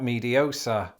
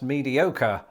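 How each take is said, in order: First: The consonant before the ending sounds like S. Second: The consonant before the ending sounds like K. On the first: The speaker calls it wrong. "and not mediosa" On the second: The speaker calls it right. "it's pronounced mediocre"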